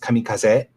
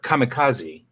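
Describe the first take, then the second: First: It is said with a Japanese pronunciation. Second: It is said with an American English pronunciation. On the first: This is how the word is said in its original language. The speaker calls it right. "sounds totally different in Japanese" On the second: This is how English speakers say the borrowed word. The speaker calls it wrong. "which is the way we say it"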